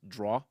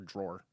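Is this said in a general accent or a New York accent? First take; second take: New York; general. First: It is said in a New York accent. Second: It is said in a general American accent. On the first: This is how New Yorkers say it. The speaker calls it right. "It's draw" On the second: This is how outsiders say it. The speaker calls it wrong. "It's not coffee or drawer"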